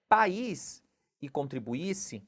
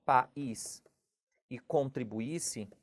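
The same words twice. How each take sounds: First: Said in the usual way. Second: "país e contribuísse" slowly, splitting pa-ís at the hiatus; slow, lower "país e contribuísse", stressed í as its own syllable; vowels separated. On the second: Shown as a demonstration. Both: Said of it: "quando eu faço essa separação".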